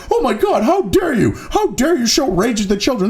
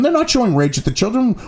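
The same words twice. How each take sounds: First: Higher, whiny mock of shocked critics; sarcastic mimic of hysterical critics; mock outrage. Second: Said in the usual way. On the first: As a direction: clutch your pearls and whine it. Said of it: "And now you're like".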